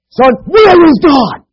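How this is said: It is asked in a very firm tone.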